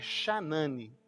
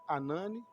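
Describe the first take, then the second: First: The name starts with a throaty, rasping sound. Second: The name starts with a silent h. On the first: This is the Hebrew pronunciation of the name. "em hebraico é Shanani" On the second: This is the Portuguese reading of the name. "a gente pode ler portuguesano Hanani"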